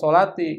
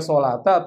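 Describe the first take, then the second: First: The word ends with an i vowel. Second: The word ends with an a vowel. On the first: "Nggak boleh dibaca" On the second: "Nggak boleh dibaca"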